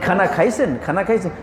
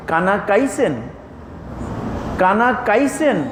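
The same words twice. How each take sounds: First: খানা খাইছেন with a clear aspirated kh; plain kh in খানা খাইছেন; standard kh. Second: কানা কাইছেন with a plain k in place of kh; Mymensingh k. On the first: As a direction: ask খানা খাইছেন the usual way, with kh. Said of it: "আমরা ভাই". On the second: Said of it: "তাহলে সব ক". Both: Shown as a demonstration.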